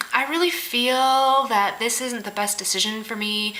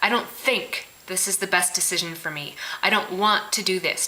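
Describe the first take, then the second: First: Slow, drawn-out imitation of hedging; mock passive-aggressive. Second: Firm, even correction without hedging; direct statement. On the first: People avoiding a decision, slow mock passive-aggressive. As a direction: stretch it out like a mealy excuse. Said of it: "it's such a passive aggressive". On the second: Shown as a demonstration. Showing how to own a decision, direct. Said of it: "You think it".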